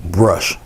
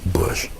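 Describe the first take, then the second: First: "brush" with a clear b-r start; saying brush. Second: "Bush" said quietly, no r at all; saying bush. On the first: Painter separating brush from bush, careful "brush". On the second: Painter separating bush from brush, quiet "Bush". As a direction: drop the r: "Bush", softly. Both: Shown as a demonstration. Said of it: "You guys understand what I'm saying".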